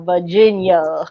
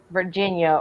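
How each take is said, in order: First: "Virginia" as "Vah-jin-yuh", in a Virginia drawl; Virginia accent. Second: Said in the usual way. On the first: Shown as a demonstration. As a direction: drop the r in "Virginia", old Virginia accent. Virginia said again in regional accent.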